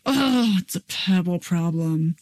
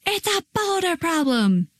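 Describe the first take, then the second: First: Exasperated "oh" easing into a subdued concession; grudging kid admission. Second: Put-on high, strained kid's wail at ordinary volume; hammed-up tantrum cry, pitched way up; mock meltdown scream. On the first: Acted. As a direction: play a kid reluctantly calming down. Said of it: "catch 'em before they go down the slide". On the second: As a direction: act out a child melting down. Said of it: "they need to just scream and shout".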